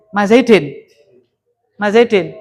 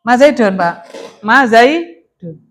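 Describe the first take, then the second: First: "Zaidin" with an i in the last syllable, -din; wrong -in ending. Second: "Zaidun" with a u in the last syllable, -dun; correct -un ending. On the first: Teacher echoes students' mistake, wrong -in ending. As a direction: end "Zaidin" in -in instead of -un. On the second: Teacher corrects students' reading, clear -un ending. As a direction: end "Zaidun" in -un instead of -in. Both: Shown as a demonstration. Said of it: "ma ini huruf jar apa ora?".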